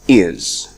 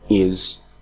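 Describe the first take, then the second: First: The word is said with a full vowel. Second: The same.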